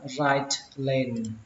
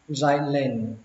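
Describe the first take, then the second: First: The t at the end of right is pronounced. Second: The t is dropped, with a brief voice break. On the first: "cách có âm t thì nó chuẩn hơn" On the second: "các bạn ngắt giọng nó một chút và bỏ âm t ra"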